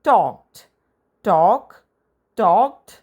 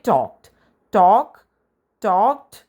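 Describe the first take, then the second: Both takes have the same delivery.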